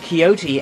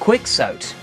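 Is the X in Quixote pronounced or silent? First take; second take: silent; pronounced. First: The X sound is left silent. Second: The X sound is pronounced aloud. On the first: The speaker calls it right. "the X was silent" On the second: The speaker calls it wrong. "I read Quixote as Quixote"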